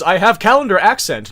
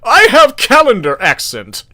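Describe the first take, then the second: First: It is read in the speaker's normal voice. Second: It is read in a put-on Seahawks voice.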